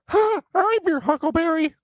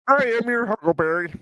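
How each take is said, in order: First: It is said in an Elmo voice. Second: It is said in a Kermit voice.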